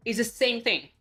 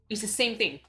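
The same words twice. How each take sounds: The two takes are said the same way.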